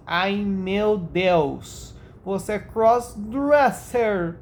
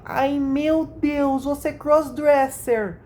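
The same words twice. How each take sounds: First: Slow, drawn-out mock gasp; lightly voiced mock shock; imitating her voice again. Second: High, drawn-out mock gasp; mock shocked girly voice; imitating her voice. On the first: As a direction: stretch the words in a teasing put-on voice. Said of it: "ficou muito engraçado a entonação". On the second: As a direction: read her message in a put-on high voice. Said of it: "eu leio imitando a voz delas".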